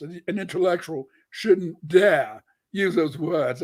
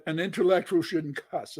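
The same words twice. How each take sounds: First: Slow, prim mock Cambridge British accent. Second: Said in the usual way. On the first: Mocking how an intellectual should talk, in a mock British accent. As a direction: put on a mock posh British accent, slowly. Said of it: "I have to be British in my British accent from Cambridge". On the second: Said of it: "I have to be British in my British accent".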